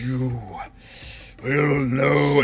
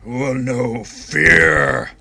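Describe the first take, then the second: First: Slow, drawn-out undead pronouncement; revenant voice. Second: Very slow, loud, drawn-out threat; menacing revenant voice. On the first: Revenant staring down Kales, slow and ominous. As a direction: stretch each word out ominously. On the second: Revenant threatening Kales, very slow and menacing. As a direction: swell into a long, heavy FEAR. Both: Acted. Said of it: "it does not sound like Orvex at all".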